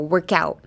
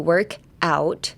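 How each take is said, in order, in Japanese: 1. 2つの単語は一つにつなげて言います。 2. 2つの単語は別々に言います。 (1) "put the work and out together and make it one word" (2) "don't say work out"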